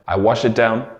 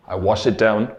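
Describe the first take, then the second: No difference in how they are said.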